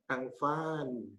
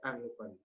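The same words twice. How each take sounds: First: The final vowel is drawn out long. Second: The final vowel is kept short. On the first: The speaker calls it wrong. "bukan kita baca Angvan, bukan gitu" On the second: The speaker calls it right. "tapi tetap Angvan"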